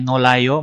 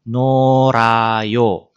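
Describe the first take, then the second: First: The middle consonant is a clear L sound. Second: The middle consonant is a flapped R sound. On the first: The speaker calls it wrong. "bukan dibacanya nolayo" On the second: The speaker calls it right. "melainkan norayo"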